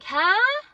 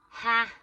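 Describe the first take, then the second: First: It sounds like asking someone to repeat. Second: It sounds dismissive, flatly rejecting the idea. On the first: The listener did not hear what was said. "is like I didn't hear you, you have to speak louder" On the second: The listener rejects that it will happen. "like no, that that isn't happening"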